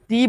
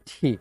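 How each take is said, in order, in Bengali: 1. t ধ্বনিটি সাধারণ, বাতাসের কোনো ঝলক ছাড়া। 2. t-এর সঙ্গে জোরালো বাতাসের ঝলক বেরোয়। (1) "টয়ের মতো করে টি বলতেন" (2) "এটাকে বলতে হবে ঠি"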